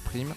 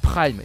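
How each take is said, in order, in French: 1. Le mot se prononce à la française. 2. Le mot se prononce à l'anglaise.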